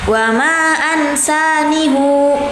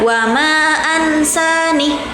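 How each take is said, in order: First: The final hu sound is drawn out long. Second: The final h sound ends without a vowel. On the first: This follows another reader's recitation. "hu-nya panjang di, di akhirnya" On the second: This follows one reader's recitation. "dengan ha di akhirnya itu disukunkan"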